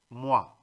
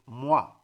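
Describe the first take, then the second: First: The vowel sounds like 'wa', as in water. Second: The same.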